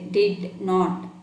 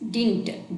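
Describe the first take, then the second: First: It is said as two full separate words. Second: It is said as one contracted word. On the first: The speaker calls it wrong. "we don't say did not" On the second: The speaker calls it right. "We say it uh, like this"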